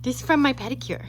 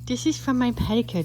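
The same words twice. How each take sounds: First: From stressed, rest light; first take stressing from. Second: Is pushed, insistent; second take stressing is, firmer. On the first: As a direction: lean on the word from. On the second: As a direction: hit the word is firmly. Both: Shown as a demonstration.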